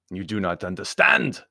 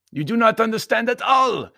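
First: Louder Baron's voice, rising at the end; insist, lifting on understand; insistent Baron. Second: Very high, loud insistence; emphatic Baron. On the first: Baron objecting to Anthony, insistent and rising. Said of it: "said the Baron". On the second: Baron objecting to Anthony, high and emphatic. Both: A narrator's reading.

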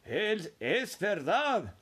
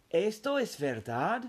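First: Put-on slow, drawn-out chorus of old voices; four grandparents insisting in unison; elderly voices declaring it's true, slowly; old folks exclaiming together. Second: Put-on a boy's eager, wide-eyed question; hopeful little boy asking if it's true; amazed child's question. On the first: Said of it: "exclamaron los cuatro ancianos al unísono". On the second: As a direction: ask it like you can't quite believe it. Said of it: "preguntó". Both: A narrator's reading.

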